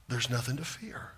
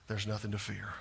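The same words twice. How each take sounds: First: Softer, still hushed; soft repeat. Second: Soft assurance. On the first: Preacher repeating the promise softly to the congregation. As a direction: let the reassurance settle gently. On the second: Preacher softly reassuring a fearful congregation. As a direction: drop it low and soft, almost hushed. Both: Shown as a demonstration.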